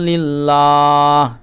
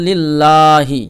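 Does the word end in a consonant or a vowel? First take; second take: consonant; vowel. First: The word ends on a bare h sound. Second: The word ends with a short vowel after h. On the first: The reading stops at the verse end. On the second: The reading continues without stopping.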